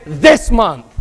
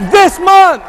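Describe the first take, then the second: First: Said in the usual way. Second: "This month" shouted, high and loud; crowd-rousing shout of "This month". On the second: Shown as a demonstration.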